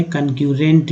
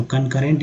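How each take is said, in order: First: कनक्यूरेंट said with a "kyu" glide, kan-kyu-rent; alternative reading. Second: कनकरेंट said kan-ka-rent, with no "kyu" glide; chosen reading. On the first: Teacher showing students another way to read the word, kan-kyu-rent. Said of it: "आप पढ़ सकते थे कनक्यूरेंट भी". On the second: Teacher telling students which reading to use, kan-ka-rent. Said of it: "यहाँ पढ़ेंगे कनकरेंट". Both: Shown as a demonstration.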